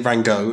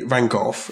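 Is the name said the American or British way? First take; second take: American; British. First: The name is said the American way. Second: The name is said the British way. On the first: "In America, they say Van Gogh" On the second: "we in Britain, we tend to say Van Gogh"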